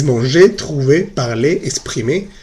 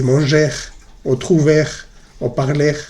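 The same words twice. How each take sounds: First: "manger, trouver, parler, exprimer" each ending in a clean "ay"; silent final R. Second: "manger, trouver, parler" ending in an audible French R; wrongly sounded R. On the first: Teacher giving students the correct verbs, "manger, trouver, parler, exprimer" with silent R. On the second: Teacher warning students what not to say, final R sounded in "manger, trouver, parler". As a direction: mistakenly close each of "manger, trouver, parler" on "-air". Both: Shown as a demonstration. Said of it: "La R no se pronuncia al final".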